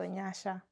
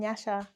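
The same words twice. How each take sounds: First: It is said slowly with a Shona pronunciation. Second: It is said quickly with an English pronunciation. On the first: The speaker calls it right. "It should be Nyasha. That's Shona. So Nyasha, like in that tempo" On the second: The speaker calls it wrong. "when I'm just like rushing, I'm like I'm Nyasha"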